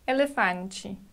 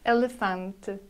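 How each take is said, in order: First: The final syllable sounds like a clear 'chee'. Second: The final syllable is soft and barely voiced. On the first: "In Portuguese from Brazil, t ending sounds like chi" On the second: "In European Portuguese, t should be pronounced very delicate"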